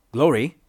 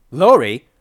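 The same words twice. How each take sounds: First: Raised-pitch call of a name; questioning call. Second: Loud, high call of her name; urgent shout. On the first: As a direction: check if she's listening, not yet shouting. First call to dazed companion. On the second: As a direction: shout to rouse someone in a daze. Calling louder after a slap. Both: A narrator's reading.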